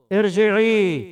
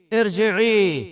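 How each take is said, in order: Both takes have the same delivery.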